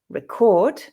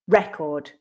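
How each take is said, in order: First: The stress is on the second syllable. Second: The stress is on the first syllable. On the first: It is the verb. "the verb, is stressed on the second syllable" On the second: It is the noun. "noun, is stressed on the first"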